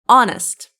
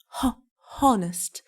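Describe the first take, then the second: First: The H at the start is silent. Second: The H at the start is sounded. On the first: The speaker calls it right. "H is silent" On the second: The speaker calls it wrong. "No, it's not like that"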